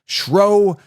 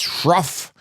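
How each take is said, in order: First: The name ends on a vowel. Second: The name ends with an f sound.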